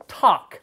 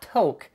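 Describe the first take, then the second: First: The vowel sounds like the one in 'tock'. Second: The vowel sounds like the one in 'toke'. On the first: The speaker calls it right. "The pronunciation is talk, like TikTok" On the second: The speaker calls it wrong. "not toke"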